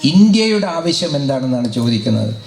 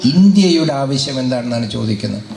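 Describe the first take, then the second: No difference in how they are said.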